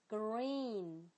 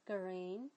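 First: Green with a long ee; long vowel. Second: Green with a short i like grin; short vowel. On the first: Teacher showing the long green meaning the colour. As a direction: hold the ee in green. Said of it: "green是绿色的". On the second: Teacher showing the short green meaning grin. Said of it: "这个短的green就是指咧嘴笑啦". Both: Shown as a demonstration.

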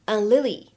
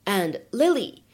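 First: "and Lily" with the d unreleased; "and Lily" linked, no burst on d; incomplete plosion. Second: Said in the usual way. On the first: Shown as a demonstration. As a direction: slide from "and" into "Lily", d held back. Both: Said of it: "会有一个不完全爆破的处理".

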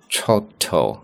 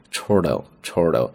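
First: "chortle" said the British way, first vowel a long open "aw"; British-style "chortle" with a rounded "aw" vowel; careful British "chortle" as a model word; British pronunciation. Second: "chortle，chortle" said the American way, with an r-coloured "or"; American-style "chortle" with the r sounded; American pronunciation. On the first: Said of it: "本来英式发音读作chortle". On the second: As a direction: clear American "chortle", repeated twice. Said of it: "那么美式发音chortle". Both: Shown as a demonstration.

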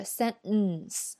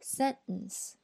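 First: Sentence, the second syllable too long and heavy; wrong sentence. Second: Sentence, the second syllable short and light; sentence, stress on the first syllable; right sentence. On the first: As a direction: lean on the end of sentence, the way to avoid. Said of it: "而不是sentence". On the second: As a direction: keep the end of sentence shorter. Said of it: "我们应该读sentence". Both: Shown as a demonstration.

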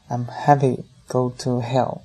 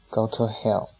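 First: Moderately raised, gleeful call; excited shout. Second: Understated eye-rolling brush-off; mildly dismissive. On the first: Fan behind his fleeing friends, excited shouting. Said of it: "更加兴奋的喊声". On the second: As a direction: brush him off with an eye roll. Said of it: "翻个白眼儿说". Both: A narrator's reading.

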